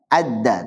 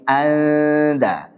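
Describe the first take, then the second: First: The n merges into a doubled d. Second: The n is hidden as a nasal sound. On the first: The speaker calls it wrong. "bukan apa? Adda" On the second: The speaker calls it right. "tapi anda"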